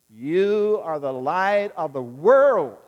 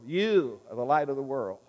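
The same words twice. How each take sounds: First: "world" punched, much louder and slow; stress on world. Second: Said in the usual way. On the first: Shown as a demonstration. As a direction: lean hard on "world" at the end. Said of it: "emphasize the last word". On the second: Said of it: "Let's do it again a third time".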